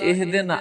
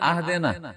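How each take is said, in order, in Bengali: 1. শব্দটি 'i' স্বরধ্বনি দিয়ে শুরু হয়। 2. শব্দটি 'a' স্বরধ্বনি দিয়ে শুরু হয়। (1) "ইহদিনা সিরাতাল মুস্তাকিম" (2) "আহদিনা যদি কেউ করে দেয়"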